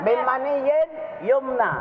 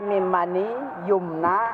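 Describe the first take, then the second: First: The 'in' ending after 'mani' is kept. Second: The 'in' ending after 'mani' is dropped. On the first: The speaker calls it right. "Harus ada tasdid tanwin dibaca" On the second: The speaker calls it wrong. "Ada tanwin yang hilang. Kita baca min mani yumna. Salah"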